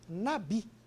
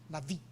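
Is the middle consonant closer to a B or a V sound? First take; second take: B sound; V sound. First: The middle consonant is a plain B sound. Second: The middle consonant sounds like a V. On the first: The speaker calls it wrong. "vamos facilitar ali, Nabi" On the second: The speaker calls it right. "um B parecendo com V"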